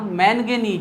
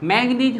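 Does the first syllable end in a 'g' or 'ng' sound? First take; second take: ng; g. First: The first syllable ends in a nasal 'ng' sound. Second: The first syllable ends in a plain 'g' sound. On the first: The speaker calls it right. "मैंगनीज होता है।" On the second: The speaker calls it wrong. "मैग्नीज होता नहीं है ना"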